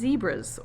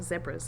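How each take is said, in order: First: Zebras is said with a non-British pronunciation. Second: Zebras is said with a British pronunciation.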